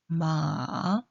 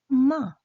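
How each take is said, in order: First: It is said with the third tone. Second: It is said with the fourth tone. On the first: "삼" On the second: "사"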